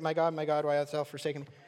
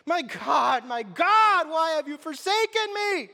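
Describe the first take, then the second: First: It is read calmly, without strong emotion. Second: It is cried out loudly, full of anguish.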